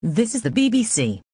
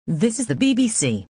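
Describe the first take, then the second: No difference in how they are said.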